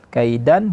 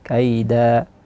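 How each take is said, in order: First: The word ends with an n sound. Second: The word ends on a long a vowel. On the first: The word runs on into the next word. "Kalau disambungkan uh, wasal namanya kaidan" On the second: The reciter stops after this word. "kita berhenti, itu jadi kaida"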